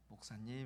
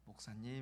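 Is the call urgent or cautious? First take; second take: cautious; cautious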